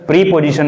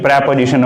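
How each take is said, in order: First: The first syllable has a long 'ee' vowel. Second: The first syllable has a short 'e' vowel. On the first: The speaker calls it wrong. "उच्चारण प्रीपोजिशन नहीं होता" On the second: The speaker calls it right. "बल्कि प्रेपोजिशन होता है"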